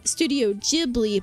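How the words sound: Ghibli is said with a Japanese pronunciation. "in Japan, I believe they pronounce it"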